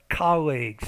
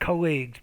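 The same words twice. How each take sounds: First: The stress is on the first syllable. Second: The stress is on the second syllable. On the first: The speaker calls it right. "stress is on the first, not the second syllable" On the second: The speaker calls it wrong. "not colleagues"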